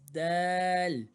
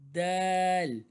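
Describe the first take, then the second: First: The vowel is drawn out long. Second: The vowel is drawn out long.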